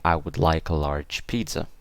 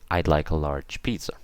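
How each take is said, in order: First: Both words I and would are said in full. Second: I and would are joined into one short syllable. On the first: The speaker calls it wrong. "don't say the full word" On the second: The speaker calls it right. "Say I'd like a large pizza"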